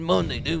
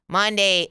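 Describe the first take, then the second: First: It sputters and cuts out like a stalling car. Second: It is flat, like a car engine revving. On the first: This is how the men on construction crews say it. "all the men on the construction crews ... it's like a car stalling out" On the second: This is how the women say it. "The trash accent with women is like Monday. It's like flat. It's like a car, um, st- uh, revving"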